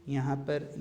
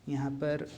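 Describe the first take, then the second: The two takes are said the same way.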